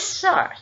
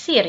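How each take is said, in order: First: The word is pronounced with the English vowel sound. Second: The word is pronounced letter by letter as spelled. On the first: The speaker calls it right. "jangan lupa bacanya sir ya" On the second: The speaker calls it wrong. "Jangan yes, sir ya"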